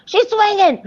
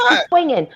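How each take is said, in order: First: Very high, building squeal; more excited. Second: High excited shout; gleeful onlooker calling it. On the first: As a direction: peak of the onlooker's glee. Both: Retold or imitated. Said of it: "People looking out the window like".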